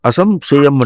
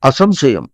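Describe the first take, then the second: First: The first syllable is weak and barely sounded. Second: The first syllable is raised and clearly sounded. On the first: The speaker calls it wrong. "చూడు అసంశయం అంటున్నావు" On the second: The speaker calls it right. "ముందు ఆ పైకి పలకాలి"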